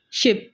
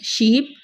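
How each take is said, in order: First: Ship with a brief vowel; ship, vowel cut short for contrast. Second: Sheep with ee stretched; sheep, ee held long for contrast. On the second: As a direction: draw out the vowel of sheep. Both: Shown as a demonstration. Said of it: "long और short में".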